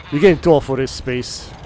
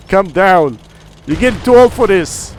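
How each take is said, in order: First: Said in the usual way. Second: Raised, higher self-rebuke; self-scolding. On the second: Acted. Gamer telling himself he is too old for this, scolding. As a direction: scold yourself firmly.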